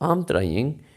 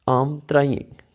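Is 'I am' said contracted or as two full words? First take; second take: contracted; contracted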